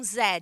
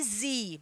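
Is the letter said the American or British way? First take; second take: British; American. First: The letter is said the British way. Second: The letter is said the American way.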